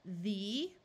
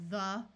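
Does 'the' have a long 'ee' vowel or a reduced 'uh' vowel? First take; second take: long ee; reduced uh. First: The vowel is a long 'ee' sound. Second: The vowel is a reduced 'uh' sound. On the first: "we will try the vowel's long sound" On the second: "our mouths get a little lazy because we're in a hurry and we wind up pronouncing it like the"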